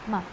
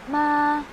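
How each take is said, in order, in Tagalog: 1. Maikli at magaan ang pantig, walang galaw ng tono. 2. Mataas at pantay lang ang tono. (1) "Yung light lang, simple lang" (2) "yung voice mo na flat lang din siya"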